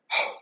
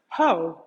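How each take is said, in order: First: It is pushed out as a breathy exhale. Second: It is spoken aloud with a normal voice. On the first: "you would feel breath on your hand" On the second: "if you were going to say them out loud"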